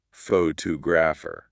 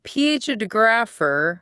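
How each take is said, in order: First: "photographer" with the stress on "tog"; stress on second syllable. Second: Misplace the stress onto opening "P H O"; stress on first syllable. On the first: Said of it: "Their ear is waiting for the shape". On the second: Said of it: "with the stress at the beginning". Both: Shown as a demonstration.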